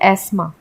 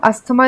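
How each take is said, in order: First: No th sound is heard after the s. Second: A th sound is heard after the s. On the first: The speaker calls it right. "हम इसे बोलते हैं एस्मा" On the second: The speaker calls it wrong. "हम अस्थमा नहीं बोलते English में"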